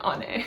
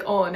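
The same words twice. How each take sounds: First: "Ane" as ON-ay; short open o at the start of "Ane". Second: "Oone" as OH-nay; round, long o in "Oone". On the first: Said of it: "omicron is a short O". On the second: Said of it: "it's not like Oone". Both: Shown as a demonstration.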